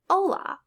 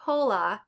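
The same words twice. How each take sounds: First: "hola" said as "o-la", H dropped; silent H. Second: "hola" with an audible breathed H; H wrongly pronounced. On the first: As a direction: drop the H in "hola", start on O. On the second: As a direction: sound the H in "hola", like "ho-la". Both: Shown as a demonstration. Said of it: "H is always silent".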